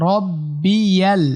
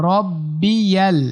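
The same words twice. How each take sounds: The two takes are said the same way.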